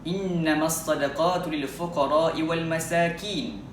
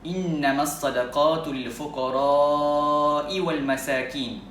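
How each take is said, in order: First: The vowel in fuqara is held short. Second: The vowel in fuqara is drawn out long. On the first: The speaker calls it wrong. "dengan membendekkan kalimah al-fuqara, yakni membaca dengan kadar ma asli, dua harakat" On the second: The speaker calls it right. "memanjangkan kalimah al-fuqara itu"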